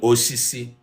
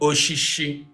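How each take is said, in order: First: It has the standard 's' sounds. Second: It has the dialect 'sh' sounds.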